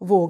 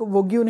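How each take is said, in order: First: The word ends with a plain 'g' sound. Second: The word ends with a 'gyoo' sound. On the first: The speaker calls it right. "वोग है" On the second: The speaker calls it wrong. "वोग्यू नहीं"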